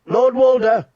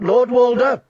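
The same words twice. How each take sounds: First: High loud call across the hall; shouting. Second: High loud call; shouting again. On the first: Catelyn shouting to Lord Walder across the hall. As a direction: shout his name over the noise. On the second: Catelyn shouting to Lord Walder a second time. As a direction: shout his name once more. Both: Acted. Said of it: "she shouted".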